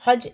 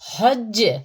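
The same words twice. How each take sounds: First: The final consonant stops flat without an echo. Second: The final consonant ends with an echoing bounce. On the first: The speaker calls it wrong. "हज हज नहीं" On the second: The speaker calls it right. "खनक जैसी jerking sound produce होगी, इको जैसी"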